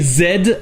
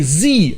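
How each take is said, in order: First: The letter name is said the British way. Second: The letter name is said the American way. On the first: "Z en anglais britannique" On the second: "Z en anglais américain"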